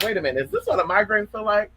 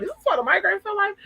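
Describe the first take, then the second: First: Quick, wondering self-question; mildly puzzled. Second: High-pitched, quick, baffled question; incredulous. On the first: Streamer recalls wondering about her first migraine, mildly puzzled. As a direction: retell a moment of mild puzzlement. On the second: Streamer re-enacts alarm at a first migraine, high and incredulous. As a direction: squeal it in mock disbelief. Repeats her reaction, now much higher. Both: Retold or imitated.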